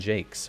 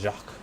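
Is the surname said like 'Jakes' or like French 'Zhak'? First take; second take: Jakes; Zhak. First: The surname is said like English 'Jakes'. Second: The surname is said like French 'Zhak'. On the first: The speaker calls it right. "he does pronounce it Brian Jakes" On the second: The speaker calls it wrong. "It looks like it's spelled Brian ja Jacques"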